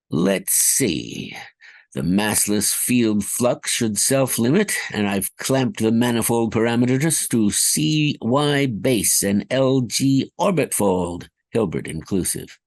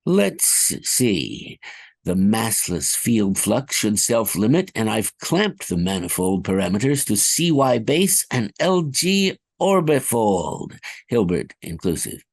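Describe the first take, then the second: First: Bobbled take. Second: Smooth, confident science jargon; clean retake. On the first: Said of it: "I kind of bobbled that one". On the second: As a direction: read the jargon fluently. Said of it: "Let me try again". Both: Acted.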